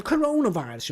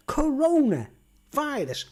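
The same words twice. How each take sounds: First: Said in the usual way. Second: "Coronavirus" drawn out slowly, pitched up; emphatic word. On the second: Real, not acted. Vlogger repeating the word so viewers remember it, slow emphasis. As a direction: stretch out "Coronavirus" to drive it home.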